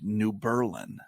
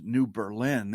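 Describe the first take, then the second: First: It is pronounced the way locals say it. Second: It is pronounced the way outsiders say it. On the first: The speaker is a regular. The speaker calls it right. "it's called New Berlin, and you have to say it like that" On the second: The speaker is not a regular. The speaker calls it wrong. "it's not called New Berlin"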